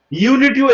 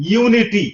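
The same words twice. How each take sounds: First: Said in the usual way. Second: ইউনিটি said carefully with a clear opening "yu"; "yu" demonstration. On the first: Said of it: "এখানে পেয়ে গেলাম". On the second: Shown as a demonstration. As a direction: model ইউনিটি as a standalone word. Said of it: "ইউ উচ্চারণটা এখানে আসলো".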